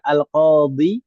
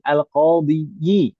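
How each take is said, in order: First: The word ends in a plain long 'i'. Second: The word ends with an extra 'yi' syllable. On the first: The speaker calls it right. "misalkan al-qadhi" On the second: The speaker calls it wrong. "kita paksakan setelahnya kasroh lagi"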